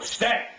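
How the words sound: The word is said sharply and forcefully. The dog feels too much pressure to hold the command. The speaker calls it wrong. "that's too much for the dog"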